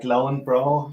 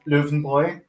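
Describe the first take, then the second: First: It is said with an American pronunciation. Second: It is said with a German pronunciation. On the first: "I think the Americans say it's more like Lauenbrau" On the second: "the German pronunciation is Löwenbräu"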